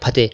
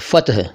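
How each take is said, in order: First: The second vowel sounds like a long e. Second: The second vowel sounds like a short a. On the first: The speaker calls it wrong. "कई लोग फतेह कहते हैं" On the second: The speaker calls it right. "फ़तह है ये"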